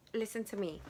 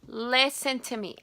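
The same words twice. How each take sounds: First: Said in the usual way. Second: Listen said firmly and louder, falling; louder insistence. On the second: Real, not acted. Vlogger stopping viewers to confess, insistent. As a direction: demand their attention.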